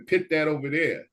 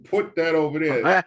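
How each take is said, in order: First: The verb is said with a short 'i' vowel. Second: The verb is said with the 'oo' vowel of 'book'. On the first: The speaker calls it wrong. "I have a bad habit which people try to correct me" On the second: The speaker calls it right. "no, pits are for cherries"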